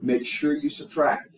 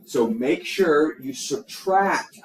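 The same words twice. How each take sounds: First: Said in the usual way. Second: "subtract" stressed, each word slowed and spaced; slow emphasis. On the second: Shown as a demonstration. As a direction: lean hard on "subtract" so it sticks. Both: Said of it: "I cannot, cannot emphasize that enough".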